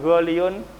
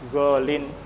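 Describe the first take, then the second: First: The word ends with a full -iyun syllable. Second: The word ends with a short -in sound. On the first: This is the original form, too heavy to say. The speaker calls it wrong. "Kalau diucapkan goliyun berat" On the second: This is the lightened form actually used. The speaker calls it right. "Maka diucapkan golin"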